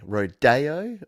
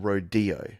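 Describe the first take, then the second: First: The second syllable sounds like 'day'. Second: The second syllable sounds like 'dee'. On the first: "Put day or D in the chat" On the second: "Put day or D in the chat"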